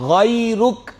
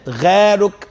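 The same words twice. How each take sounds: First: It begins with a throaty gh sound. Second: It begins with a plain hard g sound. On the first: The speaker calls it right. "अब ये गैरुक नहीं है" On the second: The speaker calls it wrong. "जो तलफुज की गलती है"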